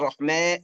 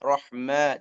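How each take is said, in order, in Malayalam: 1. അവസാന സ്വരം 'e' യിലേക്ക് ശക്തമായി ചായുന്നു. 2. അവസാന സ്വരം 'e' യിലേക്ക് ചെറുതായി മാത്രമേ ചായുന്നുള്ളൂ. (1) "ഓവർ ... അങ്ങനെ പറയണ്ട" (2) "ചെറുങ്ങനെ റിമാലത്ത് കൊടുക്കുക"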